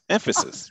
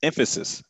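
First: "Emphasis" said much higher, rising at the end; exaggerated emphasis. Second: "Emphasis" said with a pitch lift. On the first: Guest teasing the hosts, "Emphasis" pitched high and rising. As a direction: repeat "Emphasis" pitched way up and playful. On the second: Guest to the hosts, naming emphasis with a lift. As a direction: say "Emphasis" with a firm push. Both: Shown as a demonstration.

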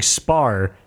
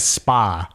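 First: "spar" drawn out, ending on a clear R sound. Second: "spa" ending on an open "ah"; SPA without R. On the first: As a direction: say "spar" slowly with the American R. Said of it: "Mike Perry's saying spar". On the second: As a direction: say "spa" with no R at all. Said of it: "is taking it as spa". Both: Shown as a demonstration.

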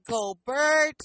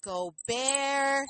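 First: "Gobert" said go-BURT, with an r-colored vowel; English-style Gobert. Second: "Gobert" said go-BEAR, silent T; French-style Gobert. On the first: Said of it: "you can say Gobert". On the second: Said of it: "that French derivative". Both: Shown as a demonstration.

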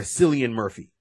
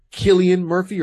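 First: "Cillian" said with an S sound, Sillian; soft-C pronunciation. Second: "Cillian" said with a K sound, Killian; hard-C pronunciation. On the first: Host offering the other guess at the name, "Cillian" as Sillian. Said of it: "it's either Cillian Murphy or". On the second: Host unsure of the actor's name, trying "Cillian" as Killian. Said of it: "if I pronounce his name". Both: Shown as a demonstration.

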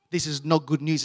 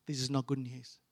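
First: Said in the usual way. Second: Low, soft retold warning; hushed warning. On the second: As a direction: break it gently and low to mum. Warning his mum about doctor.

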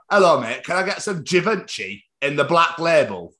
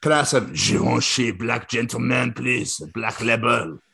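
First: "Givenchy" said the English way, with a hard ch; everyday anglicised pronunciation. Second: Slow mock French accent; hammed-up French perfume-advert accent. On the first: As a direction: order "Givenchy" in an un-French, matey way. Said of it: "The, the Givenchy, oh, sorry". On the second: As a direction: purr the order in a put-on French accent. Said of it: "you have to whisper it in the accents". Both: Shown as a demonstration.

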